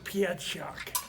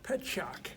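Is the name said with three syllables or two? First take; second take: three; two. First: The name is said with three syllables. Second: The name is said with two syllables.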